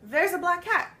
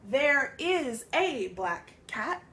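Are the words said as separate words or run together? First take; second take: run together; separate. First: The words run together like one word. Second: Each word is said separately and clearly. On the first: "It almost sounds like one, one full word" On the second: "It's no longer"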